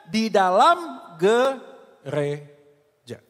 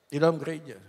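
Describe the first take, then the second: First: Slow and heavy, land "dalam" like a verdict; dragged-out emphasis. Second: Quiet echo. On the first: Preacher answering his own question to the church, slow and emphatic. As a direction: stretch every word of "Di dalam gereja" very slowly, leaning on "dalam". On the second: Preacher echoing his point to the congregation, hushed. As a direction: repeat "Di dalam gereja" softly and lower, falling on "dalam". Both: Shown as a demonstration.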